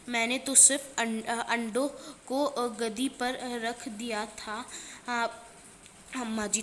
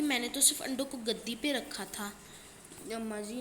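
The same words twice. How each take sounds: First: A mildly weepy plea, a bit louder; a touch of a sob in the excuse; tearful pleading. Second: Said in the usual way. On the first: Acted. Keshav tells his mother he only moved the eggs, mildly tearful. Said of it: "रोनी सूरत बनाकर बोली". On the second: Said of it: "तो केशव ने बोला कि".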